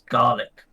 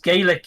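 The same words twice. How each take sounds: First: The word is said the Scottish way, with 'aa'. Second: The word is said the Irish way. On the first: This is how it is said in Scotland. "In Scotland, it's Gaelic. ... meant to be like G A A" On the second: This is how it is said in Ireland. "It's Gaelic in in uh in Ireland"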